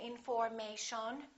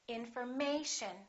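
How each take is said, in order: First: The third syllable is not the stressed one. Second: The stress falls on the third syllable. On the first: The speaker calls it wrong. "We don't say information" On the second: The speaker calls it right. "We say information"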